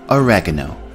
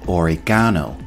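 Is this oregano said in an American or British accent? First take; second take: American; British. First: It is said with an American pronunciation. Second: It is said with a British pronunciation. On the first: "In American pronunciation" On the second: "And in British English pronunciation"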